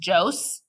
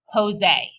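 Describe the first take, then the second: First: The name is read with English spelling sounds. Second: The name is said with Spanish sounds. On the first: The speaker calls it wrong. "It looks like it says Jose" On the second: The speaker calls it right. "but it's Jose"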